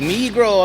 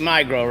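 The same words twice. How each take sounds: First: The name is said with a Spanish-style pronunciation. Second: The name is said with an English-style pronunciation. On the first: This is how people from the south near Mexico say it. "We say Migro, amigos" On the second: This is how other people say it. "y'all say Migro"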